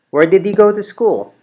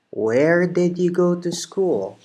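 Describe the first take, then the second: First: It is said at a faster pace. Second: It is said at a slower pace.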